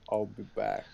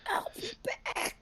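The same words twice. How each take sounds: First: It is said in an ordinary, unstrained voice. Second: It is said in a rough, strained voice. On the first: The speaker calls it wrong. "Sarah Connor doesn't sound like" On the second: The speaker calls it right. "it's more like"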